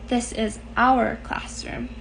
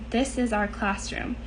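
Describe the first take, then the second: First: The phrase is read with strong added emphasis. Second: The phrase is read plainly, without added emphasis.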